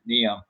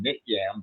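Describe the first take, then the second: First: The name has no t sound in the middle. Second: The name has a t sound in the middle. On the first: This is how people actually said the name. "everyone pronounced it Niam" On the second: This is how the name is spelled. "I think it was written N I T Y I M"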